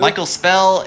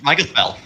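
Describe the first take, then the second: First: "Michael Spell" pitched higher, as two separate words; higher, more distinct "Michael Spell"; name repeated clearly. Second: Quick, run-together name; hurried, slurred-together "Michael Spell"; said really quickly. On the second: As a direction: rattle the name off so the words blur. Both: Real, not acted. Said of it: "you said it really quickly".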